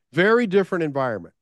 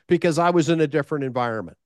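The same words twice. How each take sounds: First: "Very" hit hard, the phrase repeated for weight; stress on very. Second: Said in the usual way. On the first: Shown as a demonstration. Speaker repeats the point to the audience, pressing "Very". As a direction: lean on "Very different environment".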